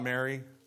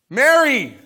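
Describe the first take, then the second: First: The name is said softly and calmly. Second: The name is called out loudly and forcefully. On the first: The name is said as a mild, ordinary address. The speaker calls it wrong. "Not Mary, my dear child" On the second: The name is called with urgency to get attention. The speaker calls it right. "Mary with an exclamation point"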